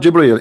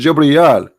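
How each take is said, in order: First: The name ends with a short 'il' sound. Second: The name ends with a distinct 'el' sound. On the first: The speaker calls it wrong. "Jibril is not Jibril" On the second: The speaker calls it right. "It is Jibriel"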